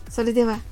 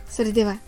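Both takes have the same delivery.

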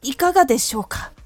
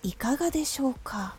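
First: The voice is tense and stiff throughout. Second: The phrase is placed softly and gently.

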